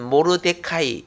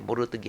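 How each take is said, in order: First: The name ends with a 'kai' sound. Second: The name ends with a 'ge' sound. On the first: This is the name's original pronunciation. "원래 발음은 모르데카이" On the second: This is the form used in the Korean Bible. "그냥 성경에 모르드게 하니까"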